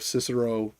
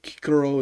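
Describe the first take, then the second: First: Said in the usual way. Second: Cicero with hard K sounds, KEE-keh-ro; classical Latin pronunciation. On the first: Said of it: "instead of Cicero". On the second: Shown as a demonstration. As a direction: say "Cicero" the Roman way, both Cs as K. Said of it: "I will try to pronounce things as best I can within their".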